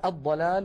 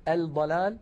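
First: الضلال said aḍ-ḍalāl, doubled ḍ; assimilated lam. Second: الضلال said al-ḍalāl, with audible l; pronounced lam. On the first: Teacher showing correct form, الضلال as aḍ-ḍalāl. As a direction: drop the l in الضلال, lean on ḍ. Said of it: "ولا نقول الضلال". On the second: Teacher showing the error, الضلال as al-ḍalāl. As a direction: sound the article's l in الضلال. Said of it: "ولا نقول". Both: Shown as a demonstration.

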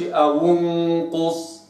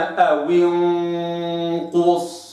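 First: أو انقص with the waw's kasra dropped; wrong reading. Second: أو انقص very slow, the waw given a clear kasra; correct demo. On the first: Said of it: "ما قلش". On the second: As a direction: stretch أو انقص with the kasra kept. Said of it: "وإنما". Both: Shown as a demonstration.

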